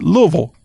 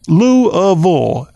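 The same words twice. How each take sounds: First: It is said with two syllables, luh-vul. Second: It is said with three syllables, loo-a-vul.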